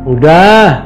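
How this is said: The word is said in an annoyed, irritated voice.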